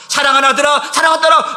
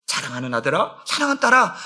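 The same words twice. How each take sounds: First: Raised, higher loving call; calling out as God. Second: Soft, low, tender address; tender call. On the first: God calling his sons and daughters, in a raised fervent call. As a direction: call out to beloved children with fervor. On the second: God tenderly addressing his children, in a soft low voice. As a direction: speak gently to a beloved child. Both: Acted.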